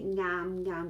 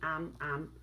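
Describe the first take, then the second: First: The word starts with an ng sound. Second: The word starts directly with a vowel. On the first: "we always say ngam ngam with the ng" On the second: "some natives also only say am am"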